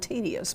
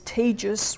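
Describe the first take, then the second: First: The word is said with the standard pronunciation. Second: The word is said with a dialect pronunciation. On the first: "not tedious" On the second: "This is tedious work"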